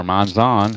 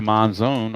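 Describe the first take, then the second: First: Monzon with a "zahn" ending; short-O pronunciation. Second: Monzon rhyming its ending with "zone"; long-O pronunciation. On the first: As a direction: open the final vowel of Monzon to "ah". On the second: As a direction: give Monzon a long final O. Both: Shown as a demonstration. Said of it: "however you want to pronounce it".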